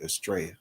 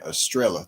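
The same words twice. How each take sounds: First: The double L is pronounced as a Y sound. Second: The double L is pronounced as an L sound. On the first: The speaker calls it right. "Two L's comes out to be pronounced as like a Y, so it's really Estrella" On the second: The speaker calls it wrong. "he keep on saying Estrella too, like two L's"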